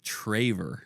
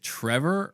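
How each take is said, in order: First: The first syllable sounds like 'tray'. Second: The first syllable sounds like 'trev'. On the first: The speaker calls it right. "It's Traver" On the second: The speaker calls it wrong. "they want to call me Trevor"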